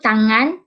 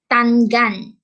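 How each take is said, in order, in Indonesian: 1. 'ng' adalah satu bunyi sengau. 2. 'ng' dipisahkan menjadi n dan g. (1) "yang sepatutnya uh, disebut" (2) "dipisahkan menjadi"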